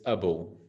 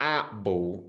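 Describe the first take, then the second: First: The word 'a' has a reduced schwa vowel. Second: The word 'a' has a full vowel. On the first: The speaker calls it right. "Suave, si chiama the schwa" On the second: The speaker calls it wrong. "it's not a ball"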